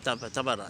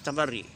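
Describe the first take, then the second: First: The word ends with an 'ah' sound. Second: The word ends with an 'ee' sound. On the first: This is the subcontinent pronunciation. "but we say as tabara" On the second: This is the Arabic pronunciation. "Ahl Zaban al-Arabi they speak tabarri"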